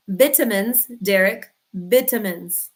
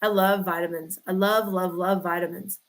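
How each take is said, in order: First: VIT-uh-mins, short i like in Europe; vitamins said the British way, VIT-a-mins. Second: Said in the usual way. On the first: Shown as a demonstration. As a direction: say vitamins like a Scot, short first i. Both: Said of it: "that's how they say it in Europe".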